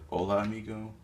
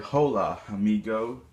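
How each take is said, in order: First: The greeting is said with a Spanish-style pronunciation. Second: The greeting is said with an English-style pronunciation. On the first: The speaker calls it right. "It's pronounced like" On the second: The speaker calls it wrong. "people sometimes say"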